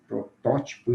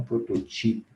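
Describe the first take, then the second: First: "protótipo" stressed as pro-TÓ-ti-po; stress on third-last syllable. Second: "prototipo" stressed as pro-to-TI-po; wrong stress on second-last syllable. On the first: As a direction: hit the TÓ in "protótipo". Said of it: "Nas proparoxítonas". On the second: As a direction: hit the TI in "prototipo". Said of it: "e não prototipo". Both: Shown as a demonstration.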